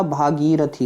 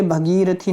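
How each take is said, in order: First: भागीरथी with a long "bhaa" at the start; भागीरथी pronounced the right way; correct pronunciation. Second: भगीरथी with a short "bha" at the start; भगीरथी as the mistaken form; wrong pronunciation. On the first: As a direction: say भागीरथी as bhaa-gee-ra-thee, stretching the first vowel. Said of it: "भागीरथी होता है". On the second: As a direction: say भगीरथी as bha-gee-ra-thee, short first vowel. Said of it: "भगीरथी नहीं होता". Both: Shown as a demonstration.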